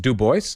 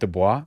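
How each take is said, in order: First: The name is said with an English pronunciation. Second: The name is said with a French pronunciation. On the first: The speaker calls it right. "It's Du Bois? ... He rejected the French pronunciation" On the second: The speaker calls it wrong. "Isn't it Dubois? That's what I thought I learned"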